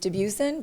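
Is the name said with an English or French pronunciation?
English. The name is said with an English pronunciation. "The English pronunciation is"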